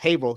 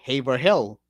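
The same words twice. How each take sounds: First: The name is said the local way. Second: The name is said the way it is spelled. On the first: The speaker calls it right. "it's actually pronounced" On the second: The speaker calls it wrong. "if you were to read it, it would say"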